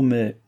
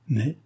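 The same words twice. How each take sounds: First: « mais » posé, en ton descendant; réserve. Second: « mais » repris en question, ton montant; écho interrogatif. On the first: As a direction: laisser tomber « mais » comme une objection. Hésitation suspendue, reprise par l'interlocutrice. (« mais » de réserve, qui descend) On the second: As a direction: renvoyer « mais » avec inquiétude, en montant. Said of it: "répéta madame de Béarn". (« mais ? » en écho, un peu moins fort) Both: A narrator's reading.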